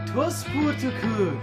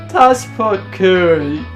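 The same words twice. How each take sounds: First: It is said in a normal voice. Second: It is said in a put-on character voice.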